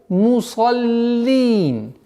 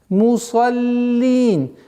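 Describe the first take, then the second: Both takes have the same delivery.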